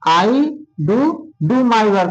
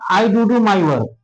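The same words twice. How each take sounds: First: There is a break after the first 'I do'. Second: The whole sentence runs together without a break. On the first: The speaker calls it right. "ऐसे पढ़ना है" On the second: The speaker calls it wrong. "ऐसे नहीं पढ़ना"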